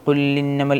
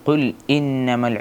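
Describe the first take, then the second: First: The words run together with no glottal catch. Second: A clear glottal catch separates the two words. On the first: The speaker calls it wrong. "എന്നാവരുത്" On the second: The speaker calls it right. "വ്യക്തമായിട്ട് കേൾക്കണം"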